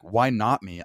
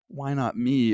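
First: It is said in a determined, confident tone. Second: It is said in a whiny, sad tone.

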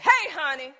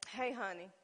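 First: It is said in a harsh, angry tone. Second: It is said in an irritated, sharper tone. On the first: He has made her even madder. "Then you make a matter" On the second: He has made her mad. "Then you make a man"

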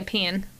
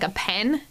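First: The vowel in 'pen' sounds Southern. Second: The vowel in 'pen' sounds Northern. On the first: The speaker sometimes slips into this way of saying it. The speaker calls it wrong. "sometimes I might slip up and say a pen" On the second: This is the speaker's usual way of saying it. The speaker calls it right. "You'll still hear me say"

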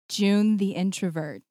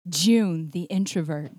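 First: It sounds like a shy young schoolgirl. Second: It sounds like a very confident woman.

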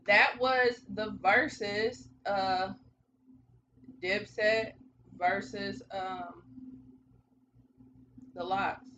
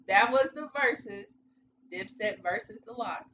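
First: It has hesitation pauses before 'The Lox'. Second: It flows without hesitation pauses before 'The Lox'.

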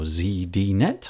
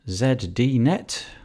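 First: The name is said with a North American pronunciation. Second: The name is said with a British pronunciation.

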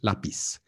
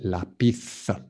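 First: The final consonant is an s sound. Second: The final consonant is a th sound. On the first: This is how it is said in Latin America. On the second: This is how it is said in Spain. "En España se dice lápiz. ... it's like th"

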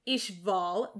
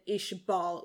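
First: The middle consonant is a v sound. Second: The middle consonant is a b sound. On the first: It follows the katakana spelling. "which is very specifically used in katakana to serve as a V" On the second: It follows the technical pronunciation. "which is in line with the technical pronunciation"

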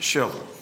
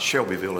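First: The middle syllable is dropped from the name. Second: Every syllable of the name is pronounced fully. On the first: This is how local natives say it. "That's how you pronounce it, ... We leave part of the letters out over there" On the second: This is how the spelling suggests saying it. "it's not Shelbyville as it ought to be pronounced"

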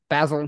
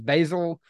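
First: The word is said with a British pronunciation. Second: The word is said with an American pronunciation. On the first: "But over in Europe they refer to it as basil" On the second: "In America we typically refer to it as basil"

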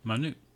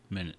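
First: The stress is on the second syllable. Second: The stress is on the first syllable.

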